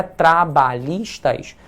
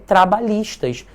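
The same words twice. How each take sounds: First: Trabalhistas said very slowly, syllable by syllable; split into syllables. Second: Said in the usual way. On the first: Shown as a demonstration. Teacher slowly splits Trabalhistas into syllables for students. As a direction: spell out Trabalhistas slowly, tra-ba-lhis-tas. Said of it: "deixa três sílabas em cima e uma embaixo". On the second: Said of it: "que é um polissílaba".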